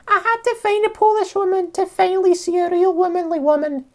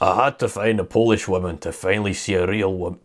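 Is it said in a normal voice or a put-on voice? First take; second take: put-on voice; normal voice. First: It is said in an imitation of the commenter. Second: It is read in the speaker's normal voice.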